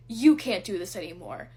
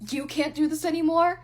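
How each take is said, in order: First: Falling, scornful flat repeat; retold scoff, settled and contemptuous; dismissive repeat. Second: Higher, louder mocking question, rising at the end; retold sneer, pitched up in disbelief. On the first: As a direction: drop it down and dismiss her. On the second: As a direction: throw the words back at her in scorn. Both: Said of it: "he scoffs at me".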